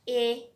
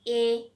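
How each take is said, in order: The two takes are said the same way.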